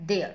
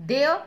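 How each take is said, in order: First: There said with a falling tune; there with a dropping finish. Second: There said with a rising tune; There with an upward lift. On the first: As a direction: settle "there." down at the end. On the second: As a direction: ask "There?" with the voice going up. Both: Shown as a demonstration. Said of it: "ये होता है no और ये है now".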